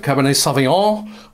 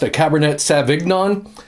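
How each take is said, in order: First: It is said in a standard pronunciation. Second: It is said in a Midwestern accent.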